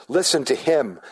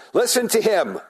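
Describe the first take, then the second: First: Said in the usual way. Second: Listen to him sung higher, leaning toward him; stress on him. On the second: Shown as a demonstration. Father shining the spotlight on the Son, raised emphasis. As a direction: lift the last words as the Father's spotlight. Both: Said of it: "it would be on the him".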